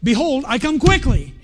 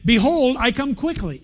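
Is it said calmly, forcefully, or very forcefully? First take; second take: forcefully; calmly. First: It is said with more force and energy. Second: It is said calmly, with ordinary energy.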